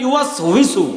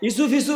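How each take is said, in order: First: The word is said with a w sound. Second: The word is said with an f sound. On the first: The speaker calls it right. "ইসুফিসু না ইউয়াস হুইসু" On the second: The speaker calls it wrong. "এই ইসুফিসু বলার লোক আছে না?"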